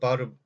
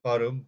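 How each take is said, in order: No difference in how they are said.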